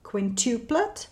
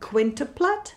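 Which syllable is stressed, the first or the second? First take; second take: second; first. First: The stress is on the second syllable. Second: The stress is on the first syllable. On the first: "s přízvukem na druhé slabice"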